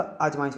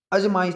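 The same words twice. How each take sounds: First: आजमाइश opening on long "aa"; correct pronunciation. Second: अजमाइश opening on short "a"; wrong pronunciation. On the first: Teacher corrects it for students, careful pronunciation. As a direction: say आजमाइश as "aaj-maa-ish". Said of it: "आजमाइश होता है". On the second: Teacher shows students the error, mispronounced. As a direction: say अजमाइश as "uj-maa-ish". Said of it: "अजमाइश नहीं होता". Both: Shown as a demonstration.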